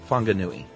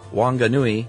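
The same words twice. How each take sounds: First: The word begins with an F sound. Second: The word begins with a W sound.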